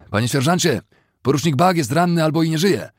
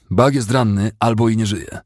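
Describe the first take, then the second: First: High-pitched urgent cry for the sergeant; alarmed shriek. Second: Firm, slightly raised, higher voice; insistent retort. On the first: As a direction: shout the alarm across the trench. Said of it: "usłyszał czyjś wrzask". (zaalarmowany wrzask, wysoki głos) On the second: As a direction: press the grim news on him firmly. Sergeant insistently repeats the alarm. (stanczo, z naciskiem, nieco wyższym głosem) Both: A narrator's reading.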